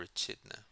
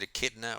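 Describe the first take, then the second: First: Echidna with ch as in chin; "Echidna" with a ch sound in place of k; soft-ch pronunciation. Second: Echidna with a hard k; stressed KID in "Echidna", with a k sound; hard-k pronunciation. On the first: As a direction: say "Echidna" as eh-CHID-nuh. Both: Shown as a demonstration. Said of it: "Am I pronouncing that correct?".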